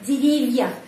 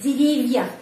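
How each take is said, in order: First: The v sound is softened before the vowel. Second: The v sound is softened before the vowel.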